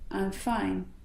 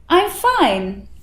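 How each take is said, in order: First: It is said flat, with little movement. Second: It is said buoyantly, with lively movement. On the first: The person seems bored, tired or upset. The speaker calls it wrong. "the flat tone" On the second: The person convincingly seems fine. The speaker calls it right. "the buoyant tone"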